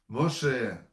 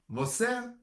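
First: The middle consonant is a 'sh' sound. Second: The middle consonant is an 's' sound. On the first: This is the original Hebrew form of the name. The speaker calls it right. "А как пророка вашего зовут?" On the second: This is how the Greeks, who could not say 'sh', said it. The speaker calls it wrong. "греки, они все «ше» переделали на «се»"

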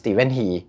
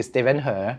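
First: The last name is said with an 'ee' vowel. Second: The last name is said with an 'uh' vowel. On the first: This is the English reading of the name. "ถ้าอ่านเป็นภาษาอังกฤษเขาอ่านว่าสตีเวนฮี" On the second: This is the Chinese reading of the name. "ถ้าอ่านเป็นจีนคือสตีเวนเฮอ"

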